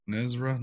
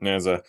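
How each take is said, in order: First: Nezra said with an r, NEZ-ra; Nezra, stressed on NEZ with an r sound; wrong pronunciation. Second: Neza said NEH-zuh, no r; correct pronunciation. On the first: Retold or imitated. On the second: Shown as a demonstration.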